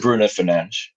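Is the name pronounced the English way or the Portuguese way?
Portuguese. The name is said with Portuguese pronunciation. "the correct Portuguese pronunciation"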